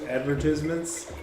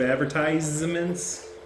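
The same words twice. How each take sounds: First: It is said the British way. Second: It is said the American way. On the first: "Do the British people say pronounce it" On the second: "instead of"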